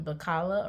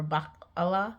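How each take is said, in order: First: Bacala said as one smooth word; acronym as a word. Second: Bacala split after the first syllable, Bac-ala; alternative acronym pronunciation. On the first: Trying out how to say the association's abbreviation, Bacala as one word. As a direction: say Bacala run together, without a break. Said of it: "pronouncing the abbreviation". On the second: Offering another way to say the abbreviation, Bacala split as Bac-ala. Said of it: "pronouncing the abbreviation Bacala or Bacala". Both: Shown as a demonstration.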